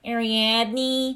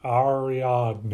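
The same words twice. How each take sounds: First: Ariadne with a nasal Midwestern twang; Midwestern accent. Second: Ariadne with broad flat A vowels, Midwestern; nasal Midwestern accent on Ariadne, ah-ree-AHD-nee. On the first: Retold or imitated. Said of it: "I don't like". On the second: Shown as a demonstration. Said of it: "but nasally".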